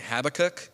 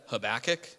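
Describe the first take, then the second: First: Habakkuk said HAB-uh-kuk; Habakkuk with HAB stressed and a light middle; others' pronunciation. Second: Habakkuk said huh-BACK-ick; Habakkuk with BACK stressed, ending in "ick"; habitual pronunciation. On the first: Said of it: "other people say Habakkuk". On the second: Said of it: "I've always said Habakkuk". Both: Shown as a demonstration.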